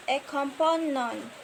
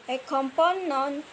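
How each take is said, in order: Both takes have the same delivery.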